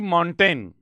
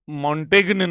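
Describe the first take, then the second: First: The name is said with no g sound. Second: The name is said with a g sound. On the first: The speaker calls it right. "जी साइलेंट है" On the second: The speaker calls it wrong. "नहीं है"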